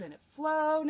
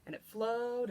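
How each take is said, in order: First: Higher, louder burst on flowed; excited. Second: Said in the usual way. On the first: A narrator's reading. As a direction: lift it up with glee. Repeated line, building delivery.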